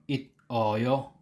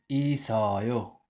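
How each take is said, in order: First: The final consonant is a T sound, not linked. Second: The consonant is an S sound linked forward. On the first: The speaker calls it wrong. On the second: The speaker calls it right. "bumalik siya sa initial sound as S"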